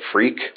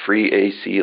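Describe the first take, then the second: First: It is said as the single word freak. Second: It is said as free plus the letters A C. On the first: "or they just call it freak" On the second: "like I pronounce it"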